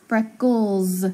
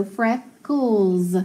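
First: "freckles" ending in a buzzing Z; final S as Z. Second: "freckles" stretched slow with a K L sound; slow blending. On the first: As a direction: lean on the Z at the end of "freckles". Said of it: "listen to that S". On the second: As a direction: draw "freckles" out as blended parts. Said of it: "and then cools". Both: Shown as a demonstration.

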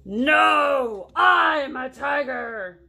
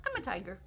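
First: Loud, slow, stretched-out roar; indignant shout. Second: Said in the usual way. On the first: Acted. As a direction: shout it to prove you are fierce. Tiger insists angrily.

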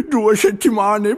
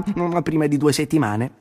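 First: "due" stretched high and slow in dismay; lamenting stress on due. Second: Said in the usual way. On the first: A narrator's reading. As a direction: lean on "due", slowly and high. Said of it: "si lamentò Arturo". ("due" acuto, lento e lamentoso) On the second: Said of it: "due settimane, povero me".

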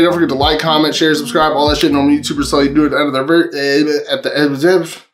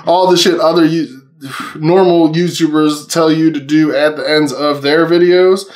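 First: Rattled off at top speed, tripping at the end; rushed, garbled sign-off; too fast. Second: Measured second attempt after stumbling; slowed-down retake. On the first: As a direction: race through it until the words tangle. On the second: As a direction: say it deliberately, word by word. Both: Real, not acted. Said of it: "how do I say that so fast".

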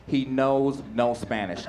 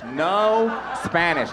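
First: "knows no Spanish" drawn out evenly at usual pitch; slow deliberate statement. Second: "No" stretched very long before "Spanish"; stress on NO. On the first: Comic revealing his teacher friend "knows no Spanish", slow and deliberate. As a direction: say "He knows no Spanish" slowly, word by word. First take, then repeated for emphasis. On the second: Comic repeating that his friend has "No Spanish", NO heavily stretched. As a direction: draw out "No" hugely, a little higher. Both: Real, not acted.

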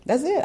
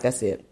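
First: That's it squeaked high and rising; mock fed-up yelp; sudden high frustrated cry; exasperated high squeak. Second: Retold exasperation. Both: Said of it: "I was just like".

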